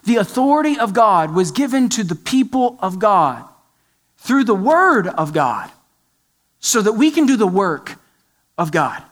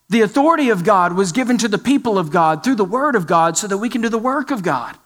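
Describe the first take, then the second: First: It is said more slowly. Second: It is said at a normal pace.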